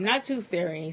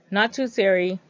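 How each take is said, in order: First: Said in the usual way. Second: Much louder, insistent correction. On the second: Real, not acted. Vlogger correcting Siri after it popped up, loudly. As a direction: say it loudly to shut down the assistant. Repeats correction to misfiring voice assistant.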